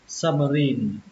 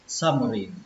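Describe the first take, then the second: First: The final syllable carries stress. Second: The final syllable carries no stress. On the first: The speaker calls it right. "lên trọng âm thứ ba nhé" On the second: The speaker calls it wrong. "Xin lỗi các bạn"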